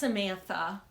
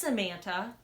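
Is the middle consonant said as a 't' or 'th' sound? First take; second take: th; t. First: The middle consonant is a th sound. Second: The middle consonant is a plain t sound. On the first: The speaker calls it wrong. "It's not Samantha. / my brain's like fills in the H" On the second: The speaker calls it right. "It's Samantha"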